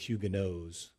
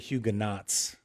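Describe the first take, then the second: First: It is pronounced the French way. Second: It is pronounced the common English way. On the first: The speaker calls it right. "the proper pronunciation is the Huguenots" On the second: The speaker calls it wrong. "you'll often hear Huguenots"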